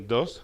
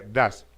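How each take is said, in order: First: The vowel sounds like a Spanish o. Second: The vowel sounds like a Spanish a. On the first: "no se pronuncia ni dos" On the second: "ni se pronuncia das"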